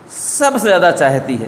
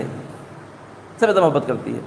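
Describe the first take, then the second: First: Said in the usual way. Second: Soft, tender hush. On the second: A narrator's reading. Preacher tells the congregation of a mother's love, softly and slowly. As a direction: drop to a near-hush, slowed and tender. Monkey's love for her baby.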